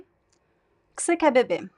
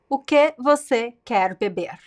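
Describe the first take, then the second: First: The words are said with reduced, shortened sounds. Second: The words are said in full, without reductions.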